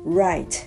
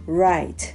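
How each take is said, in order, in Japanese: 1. 英語のRの音で始まります。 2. 英語のRの音で始まります。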